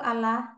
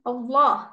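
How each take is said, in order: First: The L is pronounced thin and light. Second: The L is pronounced thick and heavy. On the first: The speaker calls it wrong. "nggak bisa nggak bilang secara santai gitu" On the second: The speaker calls it right. "Seperti menyebut eh, huruf yang tebal kan?"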